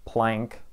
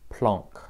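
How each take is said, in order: First: The name is said with an American pronunciation. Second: The name is said with a French pronunciation. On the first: "The American way of saying this is Planck, like I say it" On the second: "French physicists who are clearly not German say Planck"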